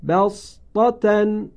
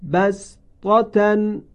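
First: بسطة recited slowly with heavy emphatic sad, chanted high. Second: بسطة recited slowly with a plain s, chanted high; recited with sin. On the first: Teacher demonstrates second reading, slow chant. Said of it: "وجه دوم با صاد". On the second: Teacher demonstrates first reading, slow chant. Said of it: "وجه اول". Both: Shown as a demonstration.

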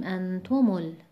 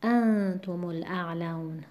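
First: انتم ال- wrongly stressed on "tu"; an-TU-mul, weight on the second syllable of انتم ال-; misplaced stress. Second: انتم الاعلون slowly, with "an" of انتم stressed; AN-tumul, "tu" left light in انتم الاعلون; stress on first syllable. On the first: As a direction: push the "tu" in انتم ال-. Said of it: "نباید بخونیم". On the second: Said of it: "چون ضمهٔ میم عارضیه". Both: Shown as a demonstration.

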